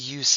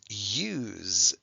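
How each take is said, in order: First: The S sounds like an S. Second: The S sounds like a Z. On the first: It is the noun, the point of something. "somebody might also say" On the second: It is the verb, to use something. "this is use"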